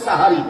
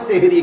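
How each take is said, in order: First: The word begins with an open 'sa' sound. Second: The word begins with an 'se' sound. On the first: The speaker calls it right. "শব্দ হচ্ছে সাহারি" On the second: The speaker calls it wrong. "আমরা বলি সেহেরি, এখানেও ভুল করি"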